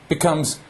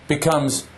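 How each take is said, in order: Both takes have the same delivery.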